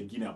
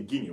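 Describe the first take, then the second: First: "Guinea" wrongly said ghi-NE-a; Guinea with sounded A. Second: "Guinea" rightly said GHI-nee; two syllables for "Guinea", A silent; Guinea ending in ee. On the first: Teacher shows what we don't say, Guinea ending e-a. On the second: Teacher gives what we say instead, Guinea ending in ee. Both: Shown as a demonstration. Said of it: "but we say Guinea".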